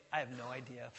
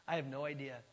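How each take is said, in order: First: Said in the usual way. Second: Laughing admission. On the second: Shown as a demonstration. Preacher showing how to admit ignorance, laughing lightly. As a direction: chuckle through I have no idea. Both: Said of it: "It's better just to say".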